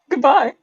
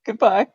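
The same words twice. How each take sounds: First: It is said excitedly, with exclamation. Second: It is said flatly, without excitement.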